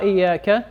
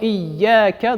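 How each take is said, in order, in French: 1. Le son y est court et simple. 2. Le son y est doublé et tenu. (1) "Ne dites pas" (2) "il y a une shadda sur ya"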